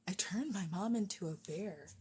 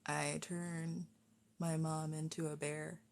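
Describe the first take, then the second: First: Put-on tentative, soft try at a Scottish accent; attempted Scottish accent. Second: Working out the line. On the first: Streamer tries a Brave line for viewers, tentative Scottish accent. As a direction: have an unsure go at Scottish, softly. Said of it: "Can I do a Scottish accent?". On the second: Shown as a demonstration. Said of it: "hear the voice in my head".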